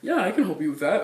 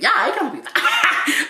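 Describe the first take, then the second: First: It is said in a masculine customer service voice. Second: It is said in a feminine customer service voice. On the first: "But it's like a man voice" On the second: "That's my girl customer service was like"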